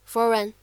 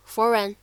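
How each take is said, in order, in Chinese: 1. 这两个单词连在一起读。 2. 这两个单词连在一起读。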